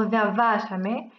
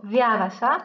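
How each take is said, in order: First: Viavacame with the accent on "va"; slow viavacame, leaning on the "va"; stress on VA. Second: Viavaca with the accent on "via"; stress on VIA. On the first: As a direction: say viavacame slowly as via-VA-came. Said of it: "c'est le va qui se trouve". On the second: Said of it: "c'est via qui se trouve être". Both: Shown as a demonstration.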